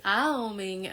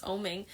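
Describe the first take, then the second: First: "aoming" opened on an AH that glides into OH; full-syllable "aoming". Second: Said in the usual way. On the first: Shown as a demonstration. Yoga teacher showing the fuller chant word, "aoming" drawn through each vowel. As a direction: say "aoming" with every syllable sounded. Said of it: "utilize all the syllables of om". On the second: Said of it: "as opposed to just oming".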